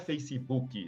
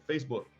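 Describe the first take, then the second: First: It is pronounced in a Brazilian-Portuguese style. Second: It is pronounced in an English style. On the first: The speaker calls it wrong. "Igual o pessoal fala ... Não é Facebook" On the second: The speaker calls it right. "é Facebook"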